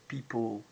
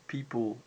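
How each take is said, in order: No difference in how they are said.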